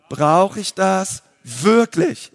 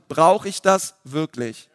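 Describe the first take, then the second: First: Slow, with wirklich lifted in a rising question; spoken slowly for the congregation to repeat, wirklich stressed. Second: Said in the usual way. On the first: Shown as a demonstration. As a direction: lean hard on wirklich and draw out the whole phrase. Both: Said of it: "Die Betonung liegt hier auf wirklich".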